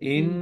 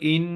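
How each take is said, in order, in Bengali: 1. নাসিক্য ধ্বনিটি দীর্ঘ করে ধরা হয়। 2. নাসিক্য ধ্বনিটি ছোট করে কাটা হয়। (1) "এই যে ইন বলে যে সময় নিলাম, এইটাই হচ্ছে কি গুণনা" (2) "আমি এক জায়গায় অবস্থান করলাম না"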